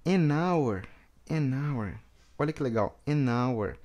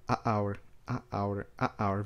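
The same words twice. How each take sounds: First: "an hour" with the "n" running into "hour"; one smooth sound, enaweɾ; linked an hour. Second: "a hour" with a break between "a" and "hour"; a, stop, hour; choppy a hour. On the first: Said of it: "A pronúncia fica bem fluida". ("an hour" fluido, "n" ligado ao "hour") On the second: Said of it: "Olha esse corte". ("a hour" com corte entre "a" e "hour") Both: Shown as a demonstration.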